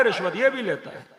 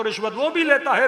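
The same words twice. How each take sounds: First: "ये" stressed with a falling close, answering "वो". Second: "वो" pointed and slightly lifted, set against "ये" in the next line; stress on वो. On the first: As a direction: land hard on "ये" and let the line fall. ("ये" पर ज़ोर, गिरती आवाज़ में) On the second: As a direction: lean on "वो" as if pointing at the other man. ("वो" पर ज़ोर देकर) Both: Shown as a demonstration.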